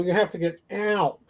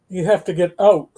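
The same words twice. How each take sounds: First: Said in the usual way. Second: Canadian out. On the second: Shown as a demonstration. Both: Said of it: "Whereas in Chicago".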